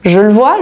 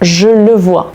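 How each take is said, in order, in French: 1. La phrase est prononcée plus vite. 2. La phrase est prononcée plus lentement.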